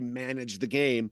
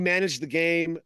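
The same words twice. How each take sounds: First: It is said in a dismissive, derogatory tone. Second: It is said in a plain, sincere tone. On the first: He did little beyond avoiding mistakes. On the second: He played steadily and safely.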